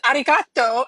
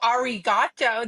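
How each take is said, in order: First: It is said with Japanese-style sounds. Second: It is said with English-style sounds. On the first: The speaker calls it right. "because that's how you say it ... that's the correct way" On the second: The speaker calls it wrong. "I'm not going to just go arigato. That's dumb"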